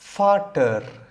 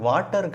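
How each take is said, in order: First: The word begins with an f sound. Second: The word begins with a w sound. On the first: The speaker calls it right. "அடுத்த வார்த்தை ஃபாட்டர்" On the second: The speaker calls it wrong. "இது வாட்டர் கிடையாது"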